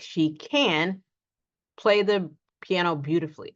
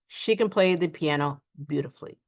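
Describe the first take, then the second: First: The word can is fully pronounced. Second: The word can is quick and reduced. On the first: The ability is being emphasized. The speaker calls it wrong. "We do not say the full can" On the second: It is ordinary conversation. The speaker calls it right. "we just simply reduce that can and say"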